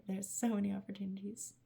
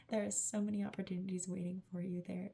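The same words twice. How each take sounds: First: Breathy whisper of "There are so many opportunities."; hushed whispered repeat. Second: Said in the usual way. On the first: Acted. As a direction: whisper it like a secret message. Same words repeated in a whisper.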